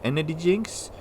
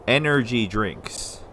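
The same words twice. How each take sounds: First: "energy drinks" run together, the d and t of drinks swallowed; slurred quick version. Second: "Energy drinks" said slowly, every syllable clear, dr sounded; careful enunciation. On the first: Vlogger catching his own lazy speech, slurring "energy drinks". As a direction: rush "energy drinks" lazily, rising like a question. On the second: Vlogger correcting himself, slowly enunciating "Energy drinks". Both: Shown as a demonstration. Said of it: "I notice that sometimes when I get a little excited".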